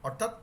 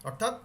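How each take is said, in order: No difference in how they are said.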